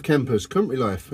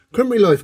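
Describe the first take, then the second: First: Said in the usual way. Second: "Country life" called out high and loud; exclaimed country life. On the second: Shown as a demonstration. Vlogger hails country life to his campers, loud and high. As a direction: sing out "Country life" with gusto.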